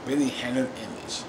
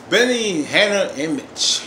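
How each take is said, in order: First: Said in the usual way. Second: Slow, drawn-out, louder announcement; announced scene title. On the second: Shown as a demonstration. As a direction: call out the names slowly, stretched. Announces the next scene's characters.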